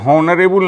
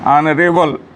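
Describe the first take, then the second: First: The word begins with an h sound. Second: The word begins with a vowel, no h. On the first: The speaker calls it wrong. "हॉनरेबल नहीं पढ़ेंगे" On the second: The speaker calls it right. "इसको पढ़ेंगे ऑनरेबल"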